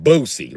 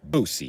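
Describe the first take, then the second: First: "Boosie" as BOH-see, firm; correct pronunciation. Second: "Boosie" as BOH-see, long o; correct pronunciation. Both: Shown as a demonstration. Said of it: "You gotta say it like that".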